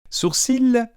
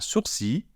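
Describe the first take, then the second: First: The word ends with an audible L sound. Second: The word ends without any L sound. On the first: The speaker calls it wrong. "Non. On ne prononce pas le L" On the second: The speaker calls it right. "On dit un sourcil"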